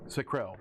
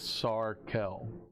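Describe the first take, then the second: First: The name begins with the sound 'sack'. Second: The name begins with the sound 'sar'. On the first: The speaker calls it wrong. "I mispronounced it" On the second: The speaker calls it right. "It's Sarkel"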